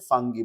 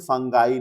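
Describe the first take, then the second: First: The word ends with an "ee" sound. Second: The word ends with an "eye" sound. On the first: The speaker calls it right. "हम इसे फंगी बोलते हैं" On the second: The speaker calls it wrong. "But हम इसे फंगाई नहीं बोलते"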